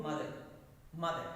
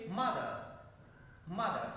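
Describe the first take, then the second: First: MOTHER evenly, without a punched first syllable; Telugu pronunciation. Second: MOTHER punched on the first syllable; English word stress. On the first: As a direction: say MOTHER the Telugu way, no extra force. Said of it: "in Telugu". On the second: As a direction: say MOTHER with force up front, light ending. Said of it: "No, but in English". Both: Shown as a demonstration.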